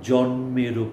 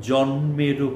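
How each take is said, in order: Both takes have the same delivery.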